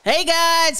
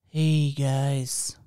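First: It is said in an excited, energetic voice. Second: It is said in a cool, laid-back voice. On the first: The speaker is presenting to an online audience. "this is your excited, you're on the internet voice" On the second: The speaker is acting relaxed and casual. "This is your cool guy voice"

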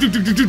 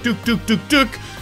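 First: The sounds are repeated very quickly. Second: The sounds are repeated at a steady, medium pace. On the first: This is pressing the button too quickly. The speaker calls it wrong. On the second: This is the safe timing for the button presses. The speaker calls it right. "You gotta hit it at a medium pace"

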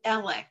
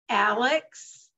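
First: The name ends with a 'k' sound. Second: The name ends with a 'ks' sound. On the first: This is how people in his home area say it. "from where he lives in that area, they call him Alec" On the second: This is how most people in the country say it. "Most of us in the country pronounce it Alex"

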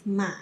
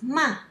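First: The pitch dips low then rises. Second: The pitch falls sharply from high. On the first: It means horse. "The third tone is ma. It means horse" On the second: It means scold. "The fourth tone is ma. It means scold"

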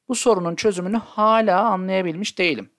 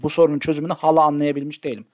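First: The vowels in hala are lengthened. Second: The vowels in hala are short. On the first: The word means still. The speaker calls it right. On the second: The word means aunt. The speaker calls it wrong.

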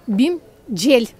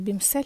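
First: The name is read with Turkish pronunciation. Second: The name is read with everyday Ukrainian pronunciation. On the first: "якщо читати турецькою" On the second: "як ми кажемо"

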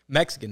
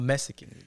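First: The middle consonant is a 'ks' sound. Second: The middle consonant is a plain 's' sound. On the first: The speaker calls it right. "It's with an X" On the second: The speaker calls it wrong. "It's not with an S"

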